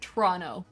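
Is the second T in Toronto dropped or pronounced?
dropped. The second T is dropped. The speaker calls it right.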